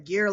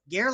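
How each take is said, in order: First: The vowel rhymes with the name Gere. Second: The vowel rhymes with the word air. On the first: "like Richard Gere" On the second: "like air"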